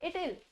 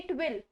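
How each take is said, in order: First: The 'w' is dropped, giving 'it'll'. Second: The word 'will' is said in full.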